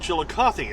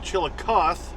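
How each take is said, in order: First: The final vowel at the end is sounded. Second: The final vowel at the end is silent. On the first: This is the name of the towns in Texas and Missouri. "they're both pronounced Chillicothe" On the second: This is the name of the town in Ohio. "where you don't say the E"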